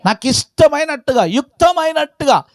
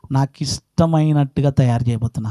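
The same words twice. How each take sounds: First: High, ringing pulpit repetition; impassioned preaching. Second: Said in the usual way. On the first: Acted. Preacher repeating God's will to shape as He pleases, impassioned. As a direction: lift "ఇష్టమైనట్టుగా" high and proclaim it.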